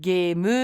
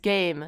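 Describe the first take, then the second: First: It is said with Japanese sounds, like geemu. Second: It is said with English sounds, like game. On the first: "some Japanese words"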